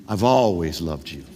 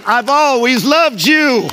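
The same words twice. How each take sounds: First: Much lower, softer, unhurried reassurance; reassuring God. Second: Much higher, louder, slow and drawn out; climactic shout. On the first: God reassuring the doubting believer, low and tender. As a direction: lay it down low like a hand on a shoulder. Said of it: "he wants to reassure you". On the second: Preacher declaring God's love as the last answer, full shout. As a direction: proclaim it at full force to the whole room. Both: Acted.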